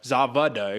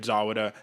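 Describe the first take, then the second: First: The middle consonant is a V sound. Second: The middle consonant is a W sound. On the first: The speaker calls it right. "that's how you pronounce the German names, the W's or V's" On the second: The speaker calls it wrong. "excuse me"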